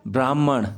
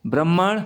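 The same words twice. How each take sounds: First: ब्राह्मण with long braa, falling. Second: ब्राह्मण with short first a, bramman, rising; short-a misreading. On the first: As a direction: stretch the first syllable of ब्राह्मण to braa. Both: Shown as a demonstration. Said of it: "अब ब्रा में आ की मात्रा".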